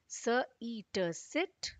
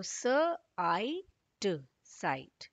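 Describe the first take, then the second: First: स, ई, ट blended into सिट with a short ई; short i sound. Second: स, आई, ट blended into साइट with the long आई; long i sound. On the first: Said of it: "आई का short sound है ई". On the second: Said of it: "आई को आई ही पढ़ेंगे". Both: Shown as a demonstration. Teacher contrasts short and long vowel for children, sounding out.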